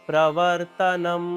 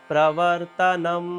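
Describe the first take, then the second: Both takes have the same delivery.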